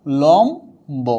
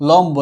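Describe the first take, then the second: First: লম্ব very slowly as "lom... bo"; syllable-by-syllable demo. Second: Said in the usual way. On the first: Shown as a demonstration. Teacher showing that b remains, slow syllable demo. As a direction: stretch লম্ব into two separate syllables. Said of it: "যেমন আমরা এটা কি বলি". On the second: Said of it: "কি বলবো".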